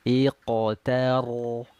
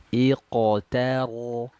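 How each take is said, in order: The two takes are said the same way.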